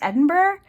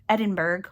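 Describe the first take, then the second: First: It is pronounced unlike the common American way. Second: It is pronounced the way many Americans say it. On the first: The speaker calls it right. "I think it's Edinburgh" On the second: The speaker calls it wrong. "I know it's not Edinburgh, Edinburgh, like a lot of Americans say"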